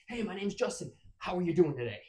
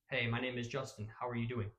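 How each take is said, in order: First: It is delivered in an overly energetic manner. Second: It is delivered in a stiff, flat manner.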